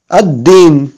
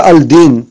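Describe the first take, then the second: First: Ad-din with no l and a held d; doubled d. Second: Al-din with the l sounded; unassimilated lam. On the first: Teacher giving the correct reading, held double d in "Ad-din". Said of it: "on ne dit pas al-din". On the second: Teacher warning learners off the mistake, audible l in "al-din". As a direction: say "al-din" with an l before a single d. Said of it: "on ne dit pas". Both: Shown as a demonstration.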